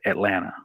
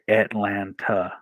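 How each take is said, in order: First: The second T is dropped. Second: The second T is clearly pronounced. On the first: This is how locals say it. "we say Atlanta. So it's like the, the second T doesn't matter" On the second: This is how most people outside the area say it. "a lot of people say Atlanta"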